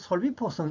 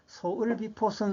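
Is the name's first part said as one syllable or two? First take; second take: one; two. First: The first part is said as one syllable, sol. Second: The first part is said as two syllables, so-eul. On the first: The speaker calls it right. "이렇게 읽는 게 원칙입니다" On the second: The speaker calls it wrong. "이렇게 읽으면 안 되고"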